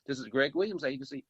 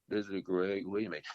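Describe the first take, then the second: First: Said in the usual way. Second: Lower, deflated phone greeting from an upset receptionist. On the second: Retold or imitated. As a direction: answer the phone like someone who was just scolded, dropping the pitch. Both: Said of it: "And, but she's gonna say".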